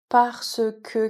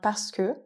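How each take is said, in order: First: The e sounds are fully pronounced. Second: The e sounds are dropped.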